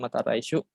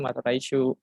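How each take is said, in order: First: The final u vowel is short. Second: The final u vowel is long. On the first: The speaker calls it wrong. "Dia bukan" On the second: The speaker calls it right. "u-nya panjang. Dua ketukan"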